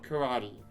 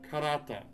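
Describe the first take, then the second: First: The word ends in an 'ee' vowel. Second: The word ends in a short 'eh' vowel. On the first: The speaker calls it wrong. "not karate" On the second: The speaker calls it right. "it should be karate"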